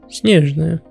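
The name is said with a Russian pronunciation.

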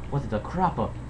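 It is said in a put-on Italian accent.

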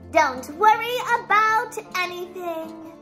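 It is said in a voice like Gloria's.

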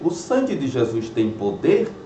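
It is said as a question. The speaker is asking whether it is true. "de uma forma interrogatória"

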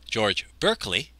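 The name is said the American way.

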